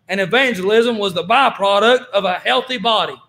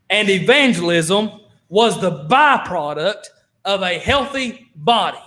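First: It is said fast. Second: It is said slowly.

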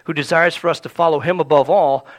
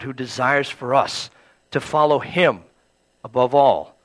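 First: The phrase is spoken quickly. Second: The phrase is spoken more slowly. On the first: The speaker calls it wrong. "I said that too fast" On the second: The speaker calls it right. "I'll say it again"

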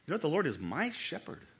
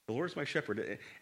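First: The word my carries the main stress. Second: The word shepherd carries the main stress. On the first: The Lord belongs personally to the speaker. "It's my shepherd" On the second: The Lord is a shepherd. "oftentimes we kind of put the emphasis on the shepherd part"

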